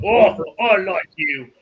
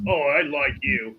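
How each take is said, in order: First: Loud, high, drawn-out delight; delighted approval. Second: Toned-down, slow amusement; understated chuckling approval. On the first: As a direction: relish it slowly and loudly, chuckle after. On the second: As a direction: say it slowly at an easy volume, lightly amused. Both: Acted. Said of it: "as he's chuckling".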